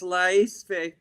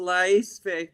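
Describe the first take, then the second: First: The name is said with all its syllables. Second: The name is said with all its syllables.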